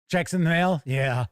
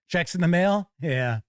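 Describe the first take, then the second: No difference in how they are said.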